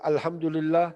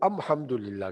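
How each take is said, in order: First: The article is pronounced with an l sound. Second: The article is pronounced with an m sound. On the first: This is the common written form. "लिखते अल्हम्दुलिल्लाह जैसे हम लिखते हैं" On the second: This is how some Arab tribes said it. "मीम की आवाज से पढ़ते थे"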